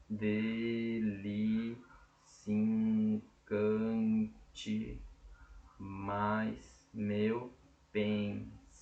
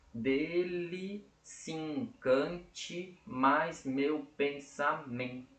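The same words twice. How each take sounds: First: Slow, broken into pieces with long pauses; chunked for counting. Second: Very slow, "se encante" run together as "sincante"; joined vowels, slow. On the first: Teacher splitting the verse so students can count it. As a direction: pause between "Dele", "se encante", "mais meu", "pensamento". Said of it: "Vamos contar?". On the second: Teacher showing students the elision in her voice, very slow. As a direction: glide "se encante" into one syllable, slowly. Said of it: "percebam aqui na minha voz". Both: Shown as a demonstration.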